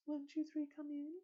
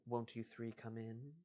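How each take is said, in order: First: Much higher, unaccented. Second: Said in the usual way. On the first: Shown as a demonstration. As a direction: pitch it way up, even and clean. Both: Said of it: "she says in a high, unaccented voice".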